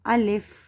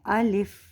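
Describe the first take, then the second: No difference in how they are said.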